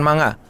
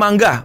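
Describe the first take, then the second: First: No hard g follows the ng sound. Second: A hard g follows the ng sound. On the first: The speaker calls it wrong. "bukan manga" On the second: The speaker calls it right. "baca itu mangga"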